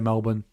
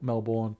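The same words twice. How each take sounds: First: Melbourne is said the way Sydney people say it. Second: Melbourne is said in a non-Sydney way. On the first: "they say Melbourne" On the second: "They don't say Mel- Melbourne"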